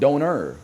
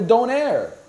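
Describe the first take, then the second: First: It is said the German way. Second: It is said the local Canadian way. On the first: The speaker calls it wrong. "I don't live in Germany, so I'm not gonna call it donor" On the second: The speaker calls it right. "that's what we call it here"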